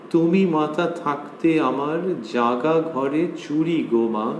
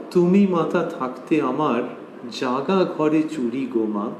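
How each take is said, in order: The two takes are said the same way.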